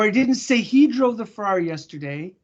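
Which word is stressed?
he. The stress falls on the word he. A different person was named. "I said she"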